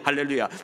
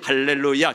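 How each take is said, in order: First: The word is said at a very fast pace. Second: The word is said at a moderate pace. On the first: "더 빨리" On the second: "조금 빨리"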